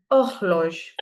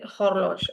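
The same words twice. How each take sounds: First: HORLOGE opening straight on "o", no H; silent H. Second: HORLOGE begun with a clear "h" sound; wrongly sounded H. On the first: Teacher shows class the correct way, silent-H pronunciation. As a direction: say HORLOGE as "or-lozh", throaty R. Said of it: "So you say horloge". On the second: Teacher tells class nobody says it so, sounded-H mispronunciation. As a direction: say HORLOGE as "hor-losh", H pronounced. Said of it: "Nobody will say horloge". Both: Shown as a demonstration.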